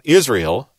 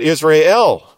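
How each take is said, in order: First: The stress is on the first syllable. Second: The stress is on the last syllable. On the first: The speaker calls it wrong. "not Israel, like we tend to do it" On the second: The speaker calls it right. "but Israel"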